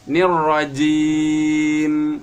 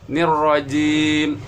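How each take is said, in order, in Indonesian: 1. Huruf m di akhir ditahan sedang. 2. Huruf m di akhir berhenti mendadak. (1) "itu bainiyah pertengahan" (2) "tidak boleh langsung mati"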